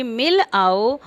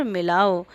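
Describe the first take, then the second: First: "मिल आओ" as two separate words; split मिल आओ. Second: "मिलाओ" as one unbroken word; joined मिलाओ. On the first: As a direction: leave a juncture between "मिल" and "आओ". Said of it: "अलग-अलग करके". ("मिल आओ" अलग-अलग शब्दों में) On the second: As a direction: run "मिलाओ" together with no gap. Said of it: "इन दोनों में बहुत अंतर है". ("मिलाओ" बिना रुके, एक शब्द में) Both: Shown as a demonstration.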